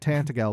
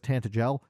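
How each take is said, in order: First: The G is said as a hard G. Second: The G is said as a soft G. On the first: This is how the speaker always said it. The speaker calls it wrong. "I've been calling it Tantagel my entire life" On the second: This is how the game says it. The speaker calls it right. "I got to hear that it was Tantagel"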